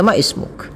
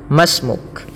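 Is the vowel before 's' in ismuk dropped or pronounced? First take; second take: pronounced; dropped. First: The 'i' of ismuk is pronounced separately. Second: The 'i' is dropped, linking ma to s. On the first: The speaker calls it wrong. "banyak orang yang membaca ma ismuk. Nah, ini kurang pas" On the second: The speaker calls it right. "maka langsung kepada huruf sinnya dibaca"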